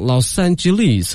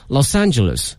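First: It is said with a British pronunciation. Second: It is said with an American pronunciation. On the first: "好像是英式发音跟那不太一样" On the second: "一个是美式发音叫Los Angeles"

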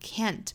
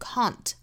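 First: It is said in an American accent. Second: It is said in a British accent. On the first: "或者是美音的 can't" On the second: "首先来做英音的语音讲解"

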